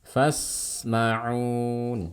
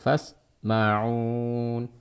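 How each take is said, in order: First: The s sound flows on with a clear hiss. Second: The s sound is cut short, not flowing. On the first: The speaker calls it right. "pastikan alirkan suaranya" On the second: The speaker calls it wrong. "Ya jangan fasma'un"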